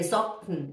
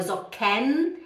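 First: Socken as "zok-n", k straight into n; E dropped. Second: Socken as "zo-KEN", rising; wrong, full E. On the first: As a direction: swallow the E in Socken, falling low. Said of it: "é o K, n". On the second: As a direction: pronounce a clear vowel in the end of Socken. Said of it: "não é Socken". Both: Shown as a demonstration.

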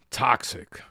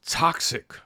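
First: Mock sneer. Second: Whispered sneering "toxic."; mock sneer. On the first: Mocking critics' buzzword. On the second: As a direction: hiss "toxic." as a breathy mock buzzword. Mocking critics' buzzword again.

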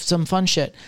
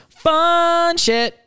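First: Said in the usual way. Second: High, loud squeal on Fun shit; a giddy, much higher yelp; excited squeal. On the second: Acted. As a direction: squeal it out gleefully. Repeats phrase, then squeals it.

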